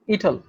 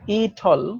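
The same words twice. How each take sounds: First: It is said fast. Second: It is said slowly.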